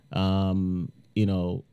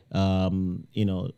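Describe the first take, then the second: No difference in how they are said.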